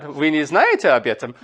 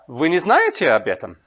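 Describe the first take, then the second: First: Вы не знаете об этом with знаете prominent, no final rise; natural Russian question tune; Russian question intonation. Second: Вы не знаете об этом with the peak on знаете and a falling end; Russian intonation with the fall after знаете; Russian question intonation. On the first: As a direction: mark the question on знаете alone. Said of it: "it sounds normal to ask a question". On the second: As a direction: let знаете carry the question, then fall. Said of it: "this is a particular characteristic of, of Russian". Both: Shown as a demonstration.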